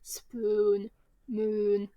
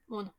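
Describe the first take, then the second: First: The vowels are drawn out long, English-style. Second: The vowels are short, native-language style.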